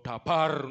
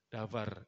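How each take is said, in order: First: It is said with a thick Javanese accent. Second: It is said without a thick Javanese accent. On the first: The speaker calls it wrong. "tapi ojo ke logat medok jo dabar no" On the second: The speaker calls it right. "davar davar gitu ya"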